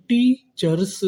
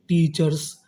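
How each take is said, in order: First: teachers split slowly as टी, cheers, first part higher; syllable-by-syllable. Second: Said in the usual way. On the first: Shown as a demonstration. Teacher building teachers for students, slow and split. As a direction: stretch teachers into two separate parts. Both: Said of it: "तो meaning क्या बनी".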